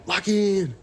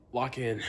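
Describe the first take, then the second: First: High, loud pump-up yell; "Lock in!" shouted high and loud; self-hype shout. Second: Said in the usual way. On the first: Real, not acted. Psyching himself up.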